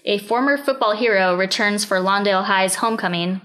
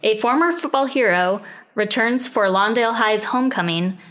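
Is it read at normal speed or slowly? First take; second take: normal; slowly. First: It is read at a normal pace. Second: It is read more slowly.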